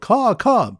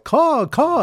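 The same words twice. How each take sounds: First: High, loud bird call; yelled caw. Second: Much higher, loud amazed caw; astonished caw. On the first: Bird watchers yelling at the birds, high loud caw. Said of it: "The bird watchers yelled". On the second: Bird watchers astonished at the hovering birds, high amazed caw. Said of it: "in astonishment". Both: Retold or imitated.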